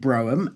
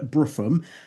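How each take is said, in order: First: The middle of the name has an h sound. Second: The middle of the name has an f sound. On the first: This is how a TV commentator says the name. "the commentator on Channel four pronounced it Broham" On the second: This is how the host says the name. "I pronounce it Georgia Bruffum"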